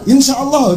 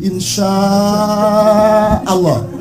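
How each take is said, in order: First: The vowel before Allah is short. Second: The vowel before Allah is held long. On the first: The speaker calls it wrong. "salah itu" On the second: The speaker calls it right. "ini ketemu hamzah fathahnya, jadi"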